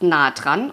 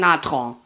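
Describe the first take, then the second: First: It is said in standard German. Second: It is said in dialect with nasal vowels.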